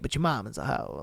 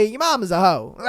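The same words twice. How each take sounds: First: Much softer and lower, mock sorry; mock apologetic. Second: Said in the usual way. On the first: Shown as a demonstration. Streamer softly breaking the news to the poster, mock apologetic. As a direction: drop your voice as if apologising. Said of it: "I'm sorry to say it". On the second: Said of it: "Let's just be real".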